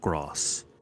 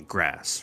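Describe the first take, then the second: First: Said with a British RP long broad vowel. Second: Said with an American short vowel. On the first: "in received pronunciation, it's more like gross" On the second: "I say grass"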